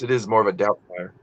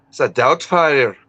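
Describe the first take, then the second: First: Said in the usual way. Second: Slow Scottish "It's a doubt fire"; Scottish accent. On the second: Shown as a demonstration. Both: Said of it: "my Scottish accent".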